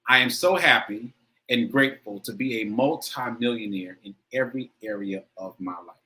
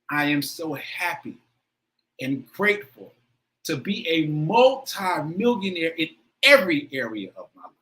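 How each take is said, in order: First: It is said plainly, without much emotion. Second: It is said with strong, heartfelt emotion.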